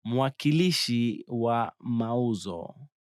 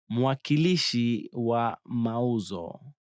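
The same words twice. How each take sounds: The two takes are said the same way.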